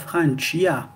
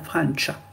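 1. Une voyelle 'ee' est prononcée après le ch. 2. Aucune voyelle 'ee' n'est prononcée après le ch. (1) "On va pas dire Francia" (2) "On va dire Francia. Le i n'existe pas"

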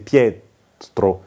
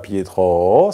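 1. L'accent est sur la première syllabe. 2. L'accent est sur la dernière syllabe. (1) "c'est Pietro" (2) "c'est pas Pietro"

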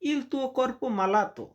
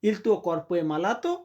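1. এটা সাধারণ বিবৃতির সুরে বলা হয়। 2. এটা প্রশ্ন করার সুরে বলা হয়। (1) "তোমার শরীর অসুস্থ" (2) "প্রশ্ন করলে একটু সাউন্ডটা এইভাবে বলবেন"

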